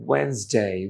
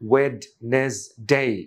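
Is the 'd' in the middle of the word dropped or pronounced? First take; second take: dropped; pronounced. First: The middle 'd' is dropped, giving 'Wensday'. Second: Every syllable is said, including the middle 'd'. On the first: The speaker calls it right. "নেটিভরা যখন দ্রুত বলে ... দে সে ওয়েন্সডে" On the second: The speaker calls it wrong. "ওয়েডনেসডে যদি ভেঙে পড়ি"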